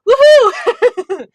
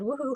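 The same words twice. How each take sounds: First: It is shouted loudly and excitedly. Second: It is said plainly and quietly.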